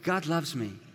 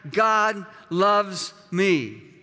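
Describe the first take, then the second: First: The words are said at moderate volume. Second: The words are said loudly and forcefully. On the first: "Now say it again, but just a little louder" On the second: "would you declare that?"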